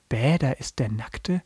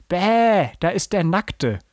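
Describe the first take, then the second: First: Slow, unexcited repeat with questioning tone; baffled read-back of an exclamation; puzzled quoting. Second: Put-on high, drawn-out kid's yell of disgust; calling out. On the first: Retold or imitated. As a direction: quote it back, not getting it. Puzzled host repeats the line. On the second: A narrator's reading. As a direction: blurt it out as a mocking cry. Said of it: "Und Paul rief".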